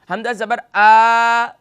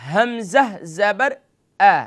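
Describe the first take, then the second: First: The final vowel is drawn out long. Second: The final vowel has a moderate, even length. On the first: The speaker calls it wrong. "अब इसे आ भी नहीं करना, खींचना भी नहीं है" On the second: The speaker calls it right. "सही तरीका"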